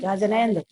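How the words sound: The greeting sounds curt and irritated. The person is still holding on to anger. The speaker calls it wrong. "ऐसे नहीं जय जिनेन्द्र। अब गुस्सा आ रहा है तो ऐसी जय जिनेन्द्र होगी"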